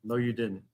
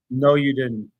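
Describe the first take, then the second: First: Softer, dropped-down contradiction; low-energy, quiet insistence; subdued denial. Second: Real, forceful contradiction; argumentative, emphatic denial; firm denial. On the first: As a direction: deny it quietly, falling away. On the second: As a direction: shut the claim down firmly. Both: Real, not acted.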